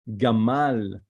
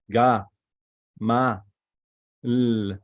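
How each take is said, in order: First: Said in the usual way. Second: "Ga, Ma, L," in three separate pieces; syllable by syllable. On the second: Shown as a demonstration. Teacher sounding out the Hebrew word, syllable by syllable. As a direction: sound out "Ga", "Ma", "L" with pauses between. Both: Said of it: "So we pronounce it".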